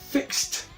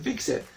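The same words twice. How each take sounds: First: The ending is a short 't' sound. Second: The ending is an extra 'id' syllable. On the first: The speaker calls it right. "Se dice fixed" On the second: The speaker calls it wrong. "no se dice fixed"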